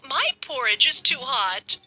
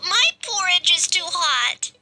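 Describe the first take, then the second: First: The voice is soft and gentle. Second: The voice is high and squeaky. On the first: "in a softer voice" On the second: "in his squeaky voice"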